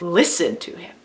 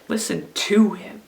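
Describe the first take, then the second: First: The stress falls on the word listen. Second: The stress falls on the word to.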